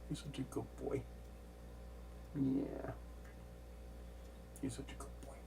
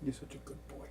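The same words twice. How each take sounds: First: Hushed cooing to a pet; talking to a cat. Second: Soft pet praise; whispering to a cat. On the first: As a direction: whisper sweet praise to the cat. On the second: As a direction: hush it to the cat. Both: Real, not acted.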